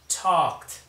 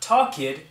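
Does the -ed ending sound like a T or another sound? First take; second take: T; other sound. First: The ending is a T sound. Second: The ending is not a T sound. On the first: The speaker calls it right. "it's a T sound" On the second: The speaker calls it wrong. "not talked"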